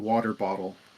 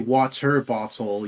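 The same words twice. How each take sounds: First: The middle consonant sounds like a D. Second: The middle consonant is a clear T. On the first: "it sounds like we're saying it with a D" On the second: "you don't say water bottle"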